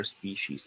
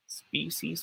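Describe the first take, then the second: First: Soft, slow species as SPEE-sheez; second option. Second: Soft, slow species as SPEE-seez; first option. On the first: Tutor repeats the choice, sh-sound pronunciation. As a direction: species with a middle sh, drawn out. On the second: Tutor repeats the choice, s-sound pronunciation. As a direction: species with a middle s, drawn out. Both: Shown as a demonstration. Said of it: "if it is pronounced as species".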